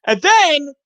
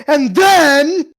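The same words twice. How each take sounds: First: Loud, high, drawn-out "and then"; animated. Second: High, loud, stretched mimicry; mock his over-animated delivery, loud and high; imitating animated storyteller. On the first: Real, not acted. Storyteller starting the next tale, over-animated. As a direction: launch the next bit with big animated energy. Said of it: "[name]'s just so animated". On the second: Friend mimicking the storyteller, exaggeratedly animated. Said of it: "It was like".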